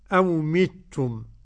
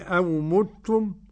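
First: The first m is followed by an i vowel. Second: The first m is followed by a u vowel. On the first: "وكسر الميم الأولى" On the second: "ضم الميم"

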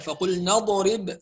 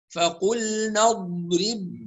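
First: The consonant before the 'b' has an echoing bounce. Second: The consonant before the 'b' is held without bounce. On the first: The speaker calls it wrong. "فقلنا اضرب هذا خطأ" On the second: The speaker calls it right. "هكذا"

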